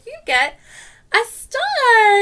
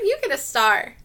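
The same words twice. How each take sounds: First: It is said very slowly. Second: It is said at normal speed.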